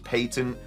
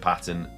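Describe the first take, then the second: First: The word has a British English pronunciation. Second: The word has a non-British pronunciation. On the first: "The way that you say patent in British English is patent" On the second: "I'm just going to start saying patent"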